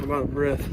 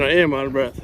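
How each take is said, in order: First: Said in the usual way. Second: Quick correction leaning on "am"; "am" stressed, said fast. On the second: Real, not acted. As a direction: stress "am" to admit it. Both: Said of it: "Correction, I am out of breath".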